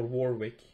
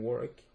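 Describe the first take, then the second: First: "Warwick" said as WAR-wick; Warwick with sounded W. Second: "Warwick" said as WOR-ick; Warwick with silent W. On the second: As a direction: drop the middle W in "Warwick". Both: Shown as a demonstration. Offers two pronunciations of name.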